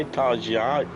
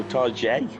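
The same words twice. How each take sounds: First: "Tarjai" with an eye ending; Tarjai, last syllable like "eye". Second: "Tarjay" said with an ay ending; Tarjay, last syllable "jay". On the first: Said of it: "A I, Tarjai". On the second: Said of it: "No, Tarjay". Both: Shown as a demonstration.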